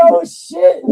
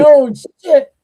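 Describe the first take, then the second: First: Very high and loud "Oh, shit", half laughing; laughing shock. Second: Loud, high "Oh, shit" with a rising end; shocked. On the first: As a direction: top the first one, cracking up. Repeated, bigger shocked reaction. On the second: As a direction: gasp it out in disbelief. Shocked reaction to the twist. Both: Retold or imitated.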